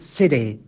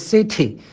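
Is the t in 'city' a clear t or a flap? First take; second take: flap; clear. First: The t is a quick flap sound. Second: The t is a clear, crisp t sound. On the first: The speaker calls it right. "这个T 就可能变成弹舌音" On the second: The speaker calls it wrong. "它不是city"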